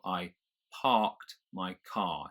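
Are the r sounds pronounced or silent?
silent. The r sounds in parked and car are silent. "the R comes before the K of parked, so I don't pronounce it"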